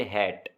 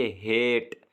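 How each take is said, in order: First: हैट said with a short, clipped vowel; short vowel hat. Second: हेट said with a held, long vowel; long vowel hate. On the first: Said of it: "short vowel होते हैं उनकी आवाज़ में ऐसा नहीं होता". (हैट में स्वर छोटा रखें) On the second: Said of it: "ए जो है इसकी आवाज़ थोड़ी सी रुकी है". (हेट में स्वर को लंबा खींचें) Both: Shown as a demonstration.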